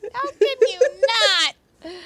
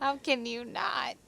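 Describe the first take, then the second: First: Very high, loud, drawn-out shout; mock outraged yell. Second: Higher, slow, drawn-out question; playful exclamation. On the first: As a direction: escalate into a comic yell. Repeats the line much louder. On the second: Pretend. Repeats the line, then escalates it.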